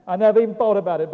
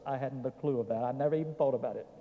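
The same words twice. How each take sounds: First: Quick, loud and higher; emphatic repeat. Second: Quick, soft admission; quiet aside. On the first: Preacher repeating his confession to the folks, emphatic. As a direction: burst out with it, fast and forceful. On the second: Preacher confessing to folks he had no clue, soft aside. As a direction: toss it off fast and softly. Low aside, then repeated with force. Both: Real, not acted.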